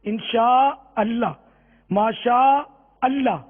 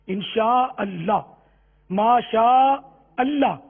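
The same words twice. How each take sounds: The two takes are said the same way.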